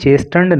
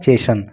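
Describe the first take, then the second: First: The t sound in the middle is pronounced. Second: The t sound in the middle is silent. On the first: The speaker calls it wrong. "चेस्टन नहीं है" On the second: The speaker calls it right. "टी silent रहता है"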